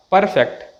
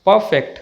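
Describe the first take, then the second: First: Perfect with an audible r before f; slow down and sound the r in perfect. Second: Perfect as "puh-fect"; silent r. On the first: Teacher shows the mistake, r sounded. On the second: Teacher models the correct word, r silent. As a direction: drop the r in Perfect. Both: Shown as a demonstration.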